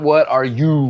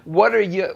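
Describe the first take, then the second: First: Each little word is pronounced fully and clearly. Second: The little words are reduced and linked together.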